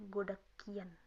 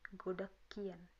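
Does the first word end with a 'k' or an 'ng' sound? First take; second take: k; k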